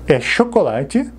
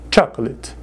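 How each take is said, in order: First: Chocolate said sho-ko-la-chi, the Portuguese way; Portuguese pronunciation. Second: Chocolate said chak-let, two syllables; English pronunciation. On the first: Teacher showing the Portuguese word, slow Portuguese way. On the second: Teacher correcting students' Portuguese habit, careful model. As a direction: say Chocolate as chak-let, not sho-ko-la-chi. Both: Shown as a demonstration. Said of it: "Cuidado com a pronúncia".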